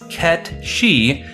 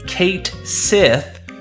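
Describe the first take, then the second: First: The name ends with a 'shee' sound. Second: The name ends with a 'sith' sound. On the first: The speaker calls it right. "its true pronunciation is Ket-Shi" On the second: The speaker calls it wrong. "often confused as Kate Sith due to how it's spelled"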